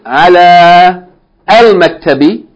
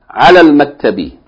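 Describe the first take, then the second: First: A long final vowel, then al said separately. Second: A short vowel, linked straight into the l. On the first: The speaker calls it wrong. "It's not going to be ala al maktabi" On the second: The speaker calls it right. "then we're not going to pronounce it long. So we're going to say alal"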